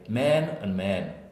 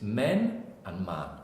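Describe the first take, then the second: First: Both words are said with the same vowel. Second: The two words are said with different vowels. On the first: The speaker calls it wrong. "if you're an American, they'll say" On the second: The speaker calls it right. "But in English, it's men and man"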